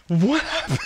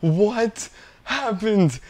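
First: Incredulous repeat. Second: Stunned disbelief. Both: Real, not acted. Disbelief after losing run.

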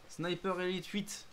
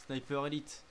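First: Slow, higher dramatic title voice; movie trailer voice. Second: Said in the usual way. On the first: Pretend. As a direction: announce it like a trailer. Repeats the game title.

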